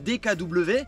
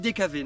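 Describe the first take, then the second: First: The last letter is said as 'double-vé'. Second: The last letter is said as a plain 'vé'. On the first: This is the standard way of saying it. "Normalement c'est D K W" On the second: This is the local regional way of saying it. "moi je dis D K V"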